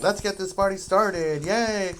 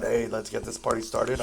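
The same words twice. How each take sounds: First: Bright, high, louder party cheer; excited cheer. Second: Said in the usual way. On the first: Retold or imitated. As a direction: kick off the party with a happy yay. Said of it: "I'm like". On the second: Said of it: "some people are not about".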